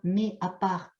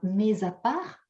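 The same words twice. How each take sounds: First: Mais and à are said without a linking sound. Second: Mais is linked to à with a z sound. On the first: The speaker calls it right. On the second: The speaker calls it wrong.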